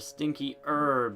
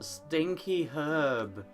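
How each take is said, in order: First: The h at the start of herb is silent. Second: The h at the start of herb is pronounced.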